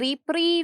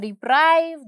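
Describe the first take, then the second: First: The second syllable has an 'ee' vowel. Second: The second syllable has an 'eye' vowel. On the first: "रिप्रीव या रिप्राइव दोनों सही हैं" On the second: "रिप्रीव या रिप्राइव दोनों सही हैं"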